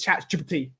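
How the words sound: It is said in an exaggerated, odd put-on way. "it's Chat G P T. He says it like"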